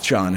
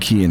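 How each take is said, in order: First: The name starts with an SH sound. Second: The name starts with a K sound. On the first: The speaker calls it wrong. "It's got to be Sean or something stupid like that" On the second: The speaker calls it right. "so they just put a C instead of a K"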